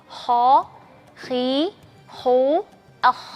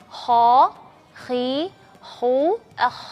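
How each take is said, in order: Both takes have the same delivery.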